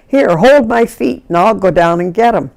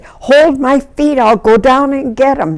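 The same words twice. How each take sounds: First: Retold instruction. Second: High, emphatic repeat all through; insistent retold order. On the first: Rescuer telling her sister to hold on, decisive. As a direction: re-enact a take-charge request. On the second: Rescuer repeating herself to doubtful helpers, insistent.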